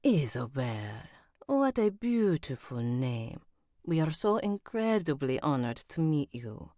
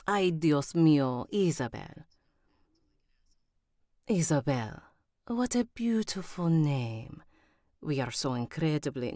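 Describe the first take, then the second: First: Spanish character voice slipping into Italian; Italian-sounding accent. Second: Put-on reach for a Spanish accent; imperfect Spanish accent, still tinged with Italian; attempted Spanish accent. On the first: Acted. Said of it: "I think that went Italian instead of Spanish". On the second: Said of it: "she's Spanish".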